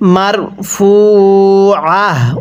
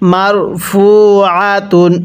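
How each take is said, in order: First: The word ends with a soft 'h' sound. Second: The word ends with a 'tun' sound. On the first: The reader stops at this word. "ওয়াকফ করলে মার ফু আহ। ওয়াকফের সময় তাটিকে হা বানিয়ে পড়ব।" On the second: The reading continues without stopping. "তা দুই পেশ তুন"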